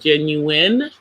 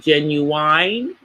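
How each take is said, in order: First: The last syllable sounds like 'win'. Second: The last syllable sounds like 'wine'. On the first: The speaker calls it right. "instead of the word genuine" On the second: The speaker calls it wrong. "They say genuine like the like the singer"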